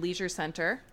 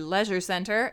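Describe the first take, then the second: First: Leisure is said with an American pronunciation. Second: Leisure is said with a British pronunciation.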